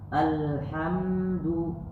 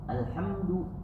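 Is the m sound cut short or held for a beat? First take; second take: held; cut short. First: The m sound is held for one beat. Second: The m sound is cut short with no beat. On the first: The speaker calls it right. "Berikan dia satu ketukan. Alhamdu ya, bukan dengung ini" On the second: The speaker calls it wrong. "tidak boleh baca alhamdu alhamdu, enggak"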